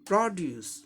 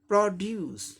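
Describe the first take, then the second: First: The stress is on the first syllable. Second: The same.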